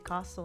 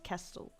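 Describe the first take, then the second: First: The first vowel is an open ah-like sound. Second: The first vowel is a front eh-like sound. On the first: This is how the speaker normally says it. "I say castle" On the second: This is how people in the Americas say it. "in the Americas you use an eh"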